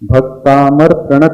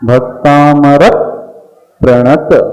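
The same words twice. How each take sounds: First: The syllable before 'pra' gets no extra stress. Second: The syllable before 'pra' gets extra stress. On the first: The speaker calls it wrong. "Bhaktamar प्रणत नहीं" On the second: The speaker calls it right. "क्योंकि आगे प्र आया है तो extra slight प का उच्चारण करना पड़ेगा"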